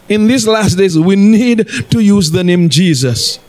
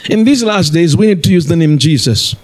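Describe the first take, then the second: First: It is said slowly. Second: It is said fast.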